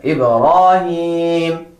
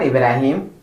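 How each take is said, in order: First: "Ibrahim" slow, heavy "raw" and long held "heem"; chant-like model "Ibrahim", last vowel held level; Ibrahim pronounced correctly. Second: "Ibrahim" short, with a light thin "ra"; wrong-way "Ibrahim", light R and short vowels; Ibrahim mispronounced. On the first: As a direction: stretch "Ibrahim" out with a full rounded R syllable. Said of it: "but Ibrahim". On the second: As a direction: say "Ibrahim" quickly, without the heavy R. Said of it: "not Ibrahim". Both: Shown as a demonstration.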